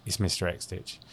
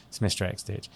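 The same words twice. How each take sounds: The two takes are said the same way.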